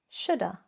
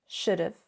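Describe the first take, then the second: First: 'Have' is shortened to a weak 'uh' sound. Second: 'Have' is shortened to a 'v' sound. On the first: "It can become even weaker" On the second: "contract have and would"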